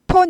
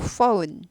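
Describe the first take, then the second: First: The word begins with a p sound. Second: The word begins with an f sound. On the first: The speaker calls it wrong. "폰 아니고" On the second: The speaker calls it right. "ph는 f 발음이 나죠"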